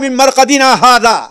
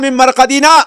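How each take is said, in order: First: The reciter pauses after the word hadha. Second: The reciter pauses after the word marqadina. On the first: The Most Merciful made no such promise. The speaker calls it wrong. "मिन मरक़दिना हाज़ा पे रुकना नहीं है। बहुत से लोग गलती करते हैं" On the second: This is what the Most Merciful promised. The speaker calls it right. "यहाँ पर रुकना है।"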